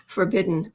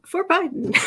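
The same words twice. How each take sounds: First: Said in the usual way. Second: "For Biden" split in two words, pitched high; punning pronunciation. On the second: Shown as a demonstration. Host spelling out the forbidden joke, "For Biden" said as a high punchline. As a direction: land the pun on "For Biden", high, with a long i in Biden.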